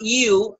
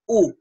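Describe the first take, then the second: First: The vowel begins with a y-glide. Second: The vowel is a plain u without a glide. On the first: The speaker calls it wrong. "the u is not u, as in music" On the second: The speaker calls it right. "is u"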